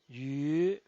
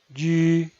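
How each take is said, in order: First: The pitch rises from mid to high. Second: The pitch stays high and level. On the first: "El segundo tono es ascendiente" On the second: "El primer tono es alto y sostenido"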